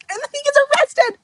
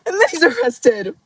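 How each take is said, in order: First: High, fast disbelieving exclamation; real shocked squeal; excited. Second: Said in the usual way. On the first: Real, not acted. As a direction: blurt it out in shock. Excited retelling of plot.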